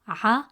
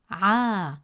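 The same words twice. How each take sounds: First: The vowel is short. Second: The vowel is long. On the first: "Instead of pronouncing it as" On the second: "it stretches the short a sound into a long a sound"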